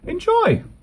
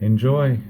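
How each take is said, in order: First: It is said brightly, with real enthusiasm. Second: It is said flatly, without real enthusiasm. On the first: The speaker sincerely means it. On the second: The speaker does not really mean it.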